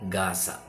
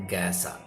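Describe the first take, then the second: Both takes have the same delivery.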